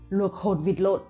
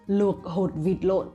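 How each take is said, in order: First: The sentence is said at a fast pace. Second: The sentence is said at a slow pace.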